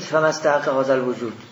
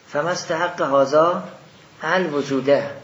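First: The last word ends without an 'a' vowel. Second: The last word ends with an 'a' vowel. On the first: Existence describes 'this' rather than being its object. The speaker calls it wrong. "نگید" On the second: Existence is the object that 'this' deserves. The speaker calls it right. "الوجود رو مفعولش بگیرید"

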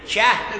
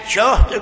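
First: The first vowel is a, giving jahd. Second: The first vowel is u, giving juhd. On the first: It means capacity. "جهد گفتی به معنای توانه" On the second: It means hardship. "اگر جهد گفتی رنج"

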